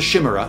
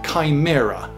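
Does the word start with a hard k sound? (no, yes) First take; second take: no; yes. First: The word starts without a hard k sound. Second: The word starts with a hard k sound. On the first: The speaker calls it wrong. "this isn't a chimera" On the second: The speaker calls it right. "This is a chimera"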